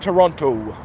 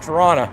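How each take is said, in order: First: It is said with a standard accent. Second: It is said with a local Toronto accent.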